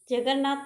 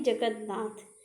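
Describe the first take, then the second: First: जगन्नाथ said quickly as 'jagar-naath'; mistaken form. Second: जगन्नाथ said as 'jagad-naath'; separated middle. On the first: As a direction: run जगन्नाथ together without a d. (जगन्नाथ जल्दी, बिना 'द' के) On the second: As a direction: put a light d before 'naath' in जगन्नाथ. (जगन्नाथ को 'जगद-नाथ' जैसा) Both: Shown as a demonstration. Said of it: "जगन्नाथ नहीं".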